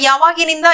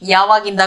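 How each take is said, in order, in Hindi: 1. यह शब्द 'nda' से पहले वाले अक्षर 'ni' को रखता है। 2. यह शब्द 'nda' से पहले वाले अक्षर 'ni' को छोड़ देता है। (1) "ये पढ़ने लिखने का क्वेश्चन में हो गया" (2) "स्पोकन में यावागिंदा का प्रयोग करते हैं"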